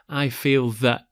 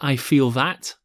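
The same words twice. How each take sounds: First: The final T in 'that' is a glottal stop. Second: The final T in 'that' is fully released. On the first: "There's something of a glottal T here" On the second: "instead of"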